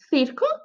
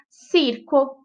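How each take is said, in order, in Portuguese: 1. O c é pronunciado com som de th. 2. O c é pronunciado com som de s. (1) "Mas na Espanha é"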